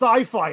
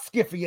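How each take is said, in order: First: It is said with an s sound and long vowels. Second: It is said with a k sound and short vowels. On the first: The speaker calls it right. "it's sci-fi" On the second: The speaker calls it wrong. "it's not Skiffy"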